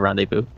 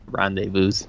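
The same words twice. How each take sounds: First: The word ends on a vowel, no final z. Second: The word ends with a z sound. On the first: There is a single meeting. "instead of rendezvous" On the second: There is more than one meeting. "the plural is is said rendezvous ... the S at the end makes a Z sound"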